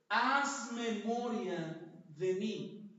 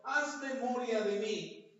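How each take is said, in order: First: Drawn out, slow plea; slow pleading prayer. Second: Said in the usual way. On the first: Shown as a demonstration. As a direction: stretch every word of the plea. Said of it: "Cuál fue la oración". (súplica muy lenta) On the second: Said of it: "Ezequías le dice al Señor".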